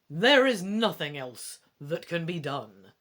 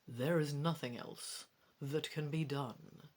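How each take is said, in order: First: It is said in a bold, heroic voice. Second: It is said in a soft, quiet voice.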